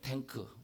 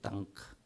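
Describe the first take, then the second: First: The first vowel is 'ae', Korean style. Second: The first vowel is 'a', Japanese style. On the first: "탱크 아시죠?" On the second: "일본 사람들이 이 탱크라는 발음이 안 돼요. 그래서 땅 그래요"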